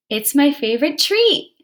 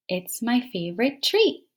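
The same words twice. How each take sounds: First: "treat" lifted excited, higher and louder; with expression. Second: Said in the usual way. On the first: Shown as a demonstration. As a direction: read "treat" with excitement for the exclamation mark. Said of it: "you said treat with expression". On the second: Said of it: "it told you to read that with expression".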